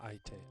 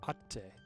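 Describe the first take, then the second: First: It has an i sound before a single t. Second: It has a held double t, no i. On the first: The speaker calls it wrong. "So I had the wrong pronunciation" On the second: The speaker calls it right. "Atte, not aite"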